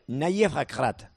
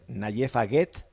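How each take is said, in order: First: The name is said with native Moroccan sounds. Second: The name is read with plain Spanish sounds. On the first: "me dijo que se pronuncia" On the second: "si lo lees fonético español"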